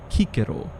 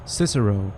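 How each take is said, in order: First: The name begins with a K sound. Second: The name begins with an S sound. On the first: This is how the name was said in his own time. "in his time would have been referred to as Cicero" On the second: This is how the name is known today. "who we know as Cicero"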